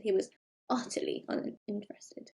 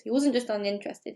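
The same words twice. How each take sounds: First: "utterly" set apart with deliberate weight; softer, measured line leaning on "utterly"; stress on UTTERLY. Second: Said in the usual way. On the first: Shown as a demonstration. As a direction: give "utterly" its own space. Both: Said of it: "used the word utterly for emphasis".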